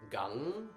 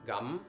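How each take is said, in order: First: The syllable ends with a back-of-tongue ng sound. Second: The syllable ends with a closed-lips m sound. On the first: "like the ng in sing" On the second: "basically pronounced like like chewing gum"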